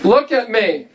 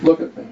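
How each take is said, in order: First: It is said loudly. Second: It is said quietly.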